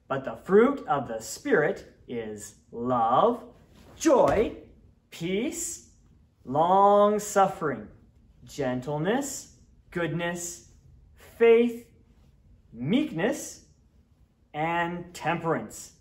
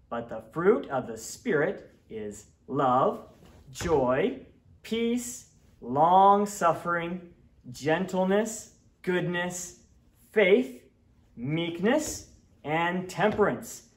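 First: It is recited at a slower pace. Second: It is recited at a faster pace.

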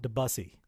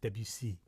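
First: It is said the Texan way, like 'the bussy'. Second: It is said with a French-style pronunciation. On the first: The speaker calls it wrong. "I'm just here to say to all Texans, it's not Debussy" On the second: The speaker calls it right. "if you want to be French or English, it's Debussy"

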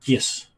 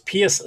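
First: The name starts without a P sound. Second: The name starts with a P sound. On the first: The speaker calls it right. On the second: The speaker calls it wrong.

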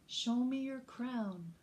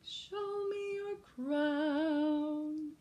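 First: It is said in a normal speaking voice. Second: It is said in a dramatic opera voice.

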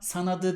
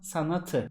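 First: The t is softened to a d. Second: The t is kept as a t. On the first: The speaker calls it wrong. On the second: The speaker calls it right.

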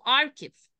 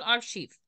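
First: The middle consonant is pronounced as 'k'. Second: The middle consonant is pronounced as 'sh'. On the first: The speaker calls it right. "هو اسمه اركيف" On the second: The speaker calls it wrong. "ناس كتير جدا بتيجي بالانجلش تقول ارشيف"

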